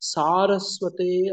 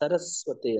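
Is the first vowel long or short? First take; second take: long; short. First: The first vowel is held long. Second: The first vowel is cut short. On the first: The speaker calls it right. "ಇದನ್ನ ದೀರ್ಘ ಹೇಳ್ಬೇಕು" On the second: The speaker calls it wrong. "ಸರಸ್ವತೆ ಅಂತ ಹೇಳ್ತಾರೆ"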